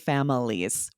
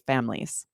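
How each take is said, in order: First: The word is said with all three syllables. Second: The word is said with the middle syllable dropped. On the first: "we don't always say families" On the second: "drop that middle syllable still when it's plural and say families"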